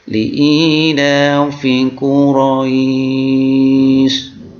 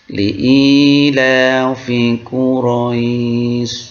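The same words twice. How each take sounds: First: The vowel in Quraisy is held very long. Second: The vowel in Quraisy is held moderately long. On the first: "Atau kita bisa panjangkan, yaitu tiga alif atau enam harokat" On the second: "Bisa kita baca sedang"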